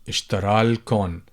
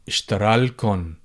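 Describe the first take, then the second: First: The vowel before 'l' is dropped. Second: The same.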